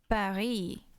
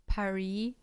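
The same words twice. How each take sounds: First: A French R is used and there is no final S. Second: An American R is used and there is no final S. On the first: "everyone knows it's Paris" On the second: "even with the American R instead of the French R"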